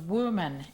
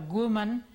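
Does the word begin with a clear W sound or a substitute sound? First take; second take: clear W; substitute. First: The first sound is a rounded-lip W. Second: The first sound replaces the rounded-lip W. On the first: The speaker calls it right. "no ponemos bien la posición de los labios" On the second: The speaker calls it wrong. "decimos uh, woman por woman"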